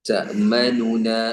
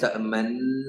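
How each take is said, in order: First: Two separate n sounds with a vowel between them. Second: The two n sounds merge into one doubled n. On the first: This is the original underlying form. "യഥാർത്ഥ രൂപം തഅമനുന എന്നാണ്" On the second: This is the assimilated form as recited. "ആദ്യത്തെ നൂന് രണ്ടാമത്തെ നൂനിലേക്ക് ഇദ്ഗാം ചെയ്യും"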